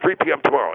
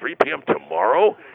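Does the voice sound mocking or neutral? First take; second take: neutral; mocking. First: It is said in a plain, neutral tone. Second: It is said in a mocking, questioning tone. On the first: A simple request for a time. "I said originally I wanted 3 p.m" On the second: The listener seems foolish for asking. "it's got this tone like, are you an idiot or something?"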